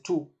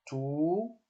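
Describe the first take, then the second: First: "to" with a brief vowel; short, unprolonged "to"; short syllable. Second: "to" with a long held vowel; slow, sustained "to"; prolonged vowel. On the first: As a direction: say "to" short, without holding it. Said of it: "une question de syllabes courtes". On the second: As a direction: stretch out the vowel of "to". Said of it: "Donc c'est prolongé". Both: Shown as a demonstration.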